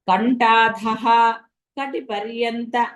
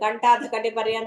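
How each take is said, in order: First: A breathy h sound ends the first word. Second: The first word ends without any breathy h. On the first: The speaker calls it right. "ఆ విసర్గ పలకాలది" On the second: The speaker calls it wrong. "అనడానికి లేదు"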